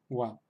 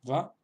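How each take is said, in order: First: The syllable begins with a W sound. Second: The syllable begins with a V sound. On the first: "como la W en inglés" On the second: "alternan la pronunciación entre va, va y wa"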